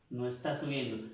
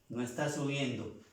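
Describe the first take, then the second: No difference in how they are said.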